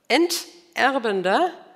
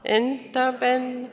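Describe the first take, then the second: First: The stress is on the second syllable. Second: The stress is on the first syllable. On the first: The speaker calls it right. "Es heißt" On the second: The speaker calls it wrong. "die letzten drei Worte haben wir falsch betont gelesen"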